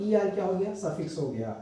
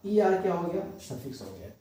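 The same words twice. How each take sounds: The two takes are said the same way.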